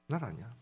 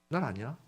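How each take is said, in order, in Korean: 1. 다정하고 친절하게 설명하는 말투예요. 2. 다정하고 친절하게 설명하는 말투예요.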